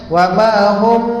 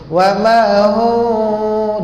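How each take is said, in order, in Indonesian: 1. Huruf m akhir ditutup rapat dengan bibir. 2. Huruf m akhir adalah dengung sengau yang lembut dan ringan. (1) "jangan wa ma hum dia rapat, tak mau"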